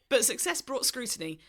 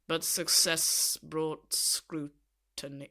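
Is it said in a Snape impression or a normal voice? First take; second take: normal voice; Snape impression. First: It is said in a normal reading voice. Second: It is said in a Snape impression voice.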